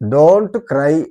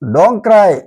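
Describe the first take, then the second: First: It is said fully with the t pronounced. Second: It is said fast with the t dropped.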